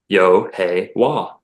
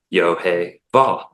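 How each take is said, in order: First: The last syllable starts with a W sound. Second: The last syllable starts with a V sound. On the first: This is the Native Floridian form of the name. "in Native Floridian, it's Yo Hey Wah" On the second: This is the common form of the name. "most people just say Yo Hey Vah. It's a V"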